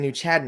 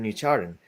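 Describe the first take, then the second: First: It is said in a Boston accent. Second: It is said in a general accent. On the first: This is how locals say it. "It's the Boston accent. They say New Chatham" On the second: This is how the sign reads. "instead of New Chardon"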